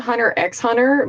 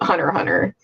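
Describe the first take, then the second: First: The letter X is spoken between both words. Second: The letter X is left out between words. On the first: The speaker calls it wrong. "I used to always say Hunter X Hunter" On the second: The speaker calls it right. "the X isn't supposed to be pronounced. It's just Hunter Hunter"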